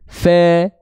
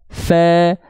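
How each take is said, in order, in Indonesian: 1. Vokalnya adalah bunyi e terbuka. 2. Vokalnya adalah bunyi e terbuka.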